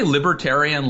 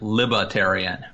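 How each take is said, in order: First: The R in the word is fully pronounced. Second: The R in the word is dropped.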